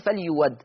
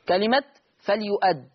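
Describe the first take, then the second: First: A w sound replaces the glottal stop. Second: A glottal stop is heard in the middle. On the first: "الإبدال واو مفتوحة فتصير فليود" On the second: "الهمزة تشكلها مفتوحة والحرف اللي قبلها مضموم"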